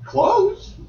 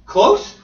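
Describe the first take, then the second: First: Close. said firmly with a level end; affirming close. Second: Close? asked high with a rising tune; questioning close. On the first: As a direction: settle on close. as a statement. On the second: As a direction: query the word Close? upward. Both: Shown as a demonstration.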